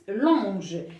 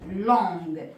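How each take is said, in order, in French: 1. Le g est doux, comme le s dans measure. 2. Le g est dur, comme le g dans go. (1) "si j'écris comme ça, ça se prononce longe" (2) "je veux une robe qui est longue"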